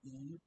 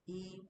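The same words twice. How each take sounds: First: The pitch of the word moves, not level. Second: The pitch of the word stays high and level. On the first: The speaker calls it wrong. "not E" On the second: The speaker calls it right. "E with the horizontal"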